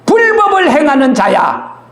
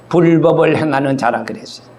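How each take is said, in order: First: 불법을 hit hard and raised, a firm verdict; stern raised condemnation, stress on 불법을; condemning rebuke. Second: Said in the usual way. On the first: Acted. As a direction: pronounce 불법을 행하는 자야 as a judge's sentence. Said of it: "그러면서". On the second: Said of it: "retold plainly after the quote".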